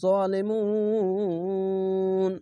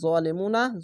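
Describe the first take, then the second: First: The word ends on n, its long vowel stretched. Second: The word ends on a short final a vowel. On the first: The reader stops at this word. "শেষ অক্ষরে সাকিন দিবেন যাবার বাদ দিয়ে সাকিন দিবেন দিয়ে তিন আলিফ টেনে পড়বেন" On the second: The reading continues without a stop. "নুন যাবার না"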